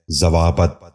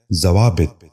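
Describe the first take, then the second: First: ضوابط ending in "-bat", "za-waa-bat"; wrong pronunciation. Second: ضوابط ending in "-bit", "za-waa-bit"; correct pronunciation. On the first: Teacher showing viewers the mistake, wrong pronunciation. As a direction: say ضوابط as zawaabat. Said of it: "یہ غلط تلفظ ہے". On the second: Teacher giving viewers the model, correct pronunciation. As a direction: say ضوابط as zawaabit. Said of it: "درست تلفظ ہے". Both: Shown as a demonstration.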